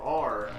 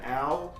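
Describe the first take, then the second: First: The letter name is said with an R sound. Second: The letter name is said without an R sound. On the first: The speaker calls it right. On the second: The speaker calls it wrong.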